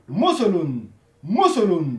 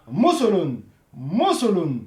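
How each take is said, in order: No difference in how they are said.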